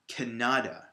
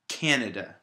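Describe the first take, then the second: First: The stress is on the middle syllable. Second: The stress is on the first syllable. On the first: The speaker calls it wrong. "more of an emphasis or a strength on that middle syllable" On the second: The speaker calls it right. "The first syllable is stressed"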